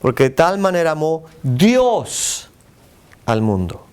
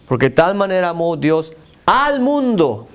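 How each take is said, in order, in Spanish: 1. La palabra Dios lleva el énfasis. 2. La palabra mundo lleva el énfasis.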